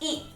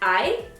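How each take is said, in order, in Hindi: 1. स्वर को एक छोटी ध्वनि के रूप में बोला जाता है। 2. स्वर को उसके अक्षर के नाम से बोला जाता है। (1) "not ई" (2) "आई will be pronounced as आई"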